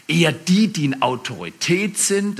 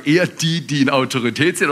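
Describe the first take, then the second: First: Said in the usual way. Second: Quick, smug command from someone in charge; self-important boss. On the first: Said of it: "an einer anderen Stelle". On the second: Retold or imitated. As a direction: rattle it off like a pleased boss. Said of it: "wenn wir in Autorität sind und sagen".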